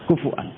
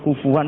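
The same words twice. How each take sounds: First: A glottal stop separates the vowels. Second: A w-like glide links the vowels.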